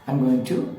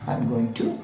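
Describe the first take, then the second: No difference in how they are said.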